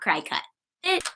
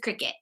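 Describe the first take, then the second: First: The first syllable sounds like 'cry'. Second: The first syllable sounds like 'crick'. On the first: The speaker calls it wrong. "not cry cut" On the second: The speaker calls it right. "cricket is cricket"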